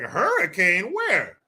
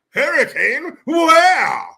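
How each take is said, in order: First: It is said in his normal voice. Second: It is said in a put-on posh voice.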